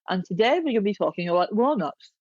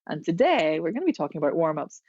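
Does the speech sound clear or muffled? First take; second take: muffled; clear. First: Spoken with the tongue out, sounding muffled. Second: Spoken normally, sounding clear and crisp. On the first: "You're sticking your tongue out" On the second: "Then you can take your tongue in and go"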